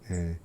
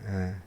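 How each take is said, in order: The two takes are said the same way.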